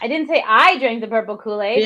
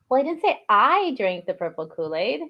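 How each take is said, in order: First: It sounds defensive and guarded. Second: It sounds knowing, as if hiding a secret.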